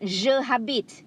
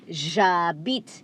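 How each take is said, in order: First: It is split into two separate words. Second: It is run together as one word. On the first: The speaker calls it wrong. "It's not je habite" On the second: The speaker calls it right. "It has to be one as one"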